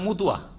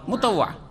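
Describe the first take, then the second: First: It is said as 'mutuya' with reduced vowels. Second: It is said as 'motawa' with full vowels. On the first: The speaker calls it wrong. "মোতাওয়া শব্দ শুদ্ধভাবে উচ্চারণ করতে পারে না বাঙালিরা, কি করে দেয়?" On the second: The speaker calls it right. "কারণ শব্দটা হচ্ছে কি?"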